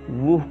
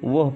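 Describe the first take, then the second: First: The word has a long 'oo' vowel. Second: The word has a short 'a' vowel. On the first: "वूह की जगह" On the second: "हम वह पढ़ेंगे"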